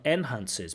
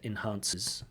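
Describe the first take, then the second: First: The stress is on the first syllable. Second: The stress is on the second syllable. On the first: The speaker calls it wrong. "So not enhances" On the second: The speaker calls it right. "but enhances"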